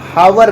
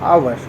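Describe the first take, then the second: First: The word begins with an h sound. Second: The word begins with a vowel sound. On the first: The speaker calls it wrong. "इसको हम हावर नहीं पढ़ते, मतलब ये गलत तरह से पढ़ना है" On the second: The speaker calls it right. "इसको हम पढ़ते हैं आवर. एच यहाँ पे साइलेंट हो जाता है"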